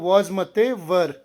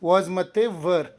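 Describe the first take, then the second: No difference in how they are said.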